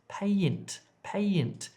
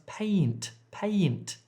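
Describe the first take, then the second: No difference in how they are said.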